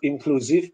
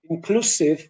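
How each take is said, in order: First: The consonant is a buzzing z. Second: The consonant is a hissing s. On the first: The speaker calls it wrong. "instead of inclusive" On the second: The speaker calls it right. "we should use S instead of Z"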